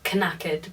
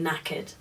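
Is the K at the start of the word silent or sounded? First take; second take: sounded; silent. First: The initial K sound is pronounced. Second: The initial K is silent. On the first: The speaker calls it wrong. "it has a K at the beginning. Um, so it seems like you would pronounce it knackered" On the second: The speaker calls it right. "but you don't, you say knackered"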